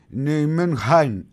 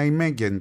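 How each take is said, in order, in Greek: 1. Λέγεται με ολλανδική προφορά. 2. Λέγεται με ελληνική προφορά. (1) "Η Ολλανδική όμως λέει προφορά είναι Νιουμενχάιν, είναι κάπως βαθύ το χι" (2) "όλοι και εγώ να ημέγγεν τη λέμε την ομάδα"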